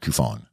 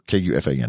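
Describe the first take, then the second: First: It is spoken as one blended word. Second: The first letters are spoken separately, then fan. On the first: The speaker calls it wrong. "not Kufan" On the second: The speaker calls it right. "that's [name] fan"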